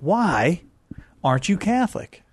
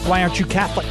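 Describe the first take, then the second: First: It is said like Captain Kirk, dramatically. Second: It is said in his normal voice.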